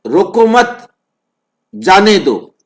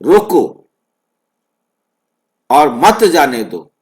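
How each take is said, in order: First: "रोको मत" run together, break, then "जाने दो"; pause after मत. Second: "रोको" alone, long break, then "और मत जाने दो"; pause after रोको. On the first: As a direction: hold the gap back until after "मत". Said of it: "और यदि ये कहा जाए". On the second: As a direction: let "रोको" stand as its own command. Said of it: "ये जो बीच का गैप है". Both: Shown as a demonstration.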